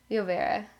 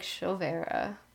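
First: The double L is sounded like a Y. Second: The double L is not sounded like a Y. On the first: "when you have a double L, it's pronounced like a Y" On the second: "she kind of says it like Chovera"

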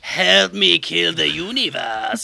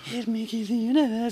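First: It is said in an exaggerated character voice. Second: It is said in a plainer, less exaggerated voice. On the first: The speaker calls it wrong. "well, not in that voice" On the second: The speaker calls it right. "but he's just like"

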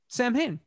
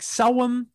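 First: The word is pronounced the way it is spelled. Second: The word sounds like 'Selwyn'. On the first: This is the popular movie pronunciation. "the real Ghostbusters pronunciation, which is just Samhain" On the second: This is the actual traditional pronunciation. "I know it's like Selwyn is how it's actually pronounced"

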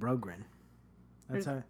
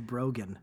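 First: The second R in the name is pronounced. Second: The second R in the name is silent. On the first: The speaker calls it right. "B-R-O-G-R-E-N. Brogren. That's how it's spelled" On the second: The speaker calls it wrong. "you always say Brogan. That's incorrect"

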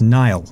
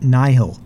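First: The name is pronounced like 'Nile'. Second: The name is pronounced like 'Nihil'. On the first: The speaker calls it right. "when it's Nile" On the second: The speaker calls it wrong. "why does he say it Nihil"

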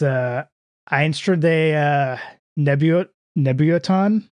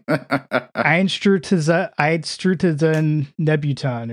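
First: The first word sounds like 'Einstrade'. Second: The first word sounds like 'Einstrutzen'. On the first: The speaker calls it wrong. "I think you mispronounced that" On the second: The speaker calls it right. "That sounded correct"

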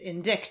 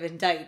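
First: The C is pronounced before the final T. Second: The C is silent, ending like 'bite'. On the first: The speaker calls it wrong. "thinking that that it's indict" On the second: The speaker calls it right. "instead of"

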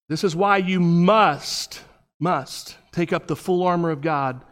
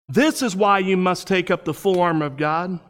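First: It is read at a noticeably slower pace. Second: It is read at a normal, quicker pace.

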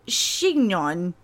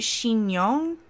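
First: The middle consonant is not turned into a y-sound. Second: The middle consonant is turned into a y-sound. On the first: The speaker calls it wrong. "I can't pronounce it" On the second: The speaker calls it right. "I feel like that IG turns into a Y"

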